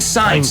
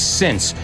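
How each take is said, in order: First: The vowel is a long 'eye' sound. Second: The vowel is a short 'i' sound. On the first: The speaker calls it wrong. "a lot of people mispronounce that and they say science" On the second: The speaker calls it right. "It's since"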